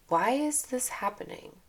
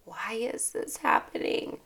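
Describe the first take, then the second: First: Higher, open curious question; lightly higher curious why; curious wonder. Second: Whispered, despairing why; breathy defeated why; quiet despairing. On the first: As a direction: ask it with bright curiosity. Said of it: "to, Oh". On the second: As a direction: say it as a hopeless complaint. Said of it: "try reframing your". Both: Shown as a demonstration.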